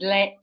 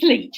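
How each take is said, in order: First: The vowel does not rhyme with bleach. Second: The vowel rhymes with bleach. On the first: The speaker calls it wrong. "the mangled pronunciations I've had" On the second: The speaker calls it right. "It rhymes with bleach"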